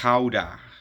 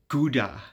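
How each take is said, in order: First: The name is said with a Dutch pronunciation. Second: The name is said with an English pronunciation. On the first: "that's the right pronunciation" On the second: "what you English speakers call Gouda"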